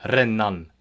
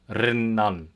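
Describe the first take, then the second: Both takes have the same delivery.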